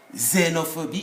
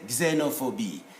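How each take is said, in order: First: The word begins without a g-like sound. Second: The word begins with a g-like sound. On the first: The speaker calls it wrong. "it's not xenophobia" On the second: The speaker calls it right. "it's g, xe, xe, xenophobia"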